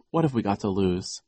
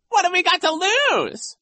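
First: Said in the usual way. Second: Very high, loud falsetto parroting; Nero mocking. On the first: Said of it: "Klaus said". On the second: A narrator's reading. Vice principal parrots the boy's question, mocking. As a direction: mimic it in a squealing jeer. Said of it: "Nero mocked".

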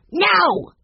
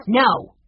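First: High, loud shout at the dog; top-of-voice shout. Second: Put-on sharp, high little-boy "no". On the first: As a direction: yell it at the top of your voice. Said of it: "shouted at the top of his voice". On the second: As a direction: say it sharply, higher pitched. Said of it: "said Benny sharply". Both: A narrator's reading.

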